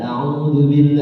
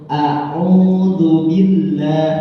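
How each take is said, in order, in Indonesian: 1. Dua bunyi pembuka itu menyatu jadi satu. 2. Dua bunyi pembuka itu diucapkan satu per satu. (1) "Itu nyambung jadi kayak a'udzu. Itu salah" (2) "Yang benar alif dulu baru ain"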